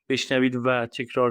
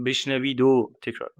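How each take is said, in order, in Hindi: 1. जोड़ने वाला शब्द 'va' की पूरी ध्वनि है। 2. जोड़ने वाला शब्द 'o' की छोटी ध्वनि है। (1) "ये ज्यादातर फो, कुछ फॉर्मल सा होगा" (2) "बोलचाल में तो हम हमेशा ओ कहते हैं"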